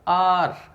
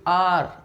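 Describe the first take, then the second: The two takes are said the same way.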